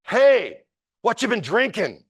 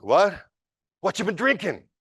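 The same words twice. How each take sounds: First: A much higher, louder call across the train car; a bright, sudden shout to interrupt the fight; cheerful high shout to a stranger; yelled out. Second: A high, baffled echo of the question; mock-bewildered drunk repeating back; confused retort. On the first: Retold or imitated. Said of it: "someone yells out". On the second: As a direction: drunk man thrown off.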